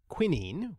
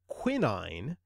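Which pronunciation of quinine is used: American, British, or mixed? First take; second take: British; mixed. First: It uses the usual British pronunciation. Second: It uses a mixed pronunciation. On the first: "The usual British pronunciation is quinine" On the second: "The mixed pronunciation of quinine"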